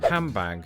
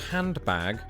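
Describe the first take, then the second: First: It has an m sound before the b. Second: It has an n sound before the b.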